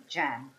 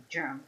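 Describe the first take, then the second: First: "jam" with a hard English j; English-style "jam", short open vowel; English pronunciation. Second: "germ" with a soft French zh at the start; French-accented "germ" for gem; French pronunciation. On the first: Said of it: "we don't say jam". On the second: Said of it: "in French we say germ". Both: Shown as a demonstration.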